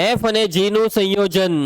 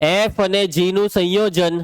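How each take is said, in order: Both takes have the same delivery.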